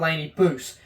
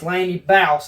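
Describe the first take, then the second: First: The surname's vowel sounds like 'goose'. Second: The surname's vowel sounds like 'house'. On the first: The speaker calls it wrong. "not Laney Boose" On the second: The speaker calls it right. "It's Laney Bouse, I do believe"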